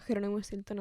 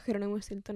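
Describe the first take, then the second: First: The name is said in the speaker's personal pronunciation. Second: The name is said in the speaker's personal pronunciation.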